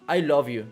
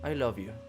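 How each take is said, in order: First: It is said in a happy, warm voice. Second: It is said in a cold, ominous voice. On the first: The message is affectionate. "If you read it with a happy voice, yeah, it sounds good" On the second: Something bad is about to be said. "But you can totally read it like"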